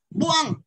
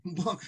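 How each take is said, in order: First: Loud, sharp cry of buang; angry shout. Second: Said in the usual way. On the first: Acted. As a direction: fling out "Buang" as an insult. (galit na sigaw ng "Buang") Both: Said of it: "sabi niya".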